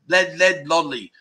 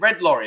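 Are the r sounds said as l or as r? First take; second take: l; r. First: The r sounds are said as l. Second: The r sounds are said as r. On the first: "Because they can't pronounce it" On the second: "I said"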